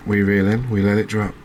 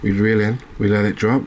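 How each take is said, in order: Both takes have the same delivery.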